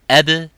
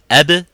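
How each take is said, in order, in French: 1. Le b final a un relâchement en écho plus faible. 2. Le b final a un relâchement en écho fort.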